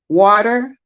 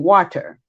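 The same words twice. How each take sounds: First: The t is soft and flapped. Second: The t is clearly pronounced. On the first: The speaker calls it wrong. "we'll say water" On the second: The speaker calls it right. "I have to repronounce it and say water"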